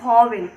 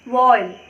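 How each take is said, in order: First: The word is said with two full syllables. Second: The word is squeezed into a single syllable. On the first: This is how most people commonly say it. The speaker calls it wrong. "Generally सभी लोग क्या बोलते हैं इसको वॉवेल" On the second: This is the actual correct pronunciation. The speaker calls it right. "Actual में इसका जो pronunciation होता है वो वॉवेल नहीं होता है"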